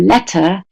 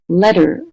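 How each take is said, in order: First: The middle consonant is a clear T. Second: The middle consonant sounds like a D. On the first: "like the British do" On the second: "which sounds more like a D"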